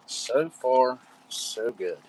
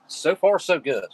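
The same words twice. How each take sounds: First: Said in the usual way. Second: Upbeat. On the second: Real, not acted. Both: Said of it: "I will say".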